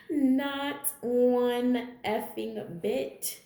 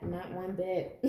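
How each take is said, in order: First: Laughing through it, slow on effing bit; real amused laugh on the repeat. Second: Said in the usual way. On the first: Real, not acted. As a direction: chuckle while you repeat it. Repeats the line, then laughs.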